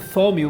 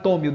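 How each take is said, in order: First: It begins with an English TH sound. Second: It begins with a plain T sound. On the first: "um negócio com T H do inglês" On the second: "mas a gente vai chamar de Thaumiel"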